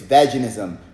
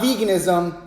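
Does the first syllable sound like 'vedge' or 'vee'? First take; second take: vedge; vee. First: The first syllable sounds like 'vedge'. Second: The first syllable sounds like 'vee'. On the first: The speaker calls it right. "it's veganism. You know why it's veganism? Because when you call a vegetable" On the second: The speaker calls it wrong. "It's not veganism"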